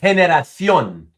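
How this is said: The c is said like th. This is how speakers in Spain say it. "that's how we would pronounce it as a T H"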